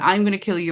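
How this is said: It is said in a small, childlike voice. "in her child voice"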